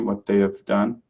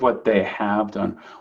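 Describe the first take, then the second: First: 'Have' is reduced to just a V sound. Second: 'Have' is said as a full word. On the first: The speaker calls it right. "that have can become like a, just a V sound" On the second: The speaker calls it wrong. "instead of"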